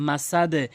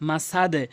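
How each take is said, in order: Both takes have the same delivery.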